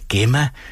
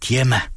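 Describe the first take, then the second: First: The name begins with a hard g sound. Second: The name begins with a dj sound. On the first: The speaker calls it wrong. "Jeg sagde Gemma" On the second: The speaker calls it right. "der udtales G som dyr, altså DJ-lyden"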